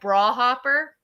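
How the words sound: Briar is squeezed into one syllable. The speaker calls it wrong. "with a Middletown accent, it sounds like bra hopper"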